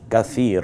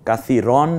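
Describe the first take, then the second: First: The word stops cleanly on the 'r' sound. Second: The word ends with an added '-an' sound. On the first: The speaker calls it right. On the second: The speaker calls it wrong. "কাসিরন না"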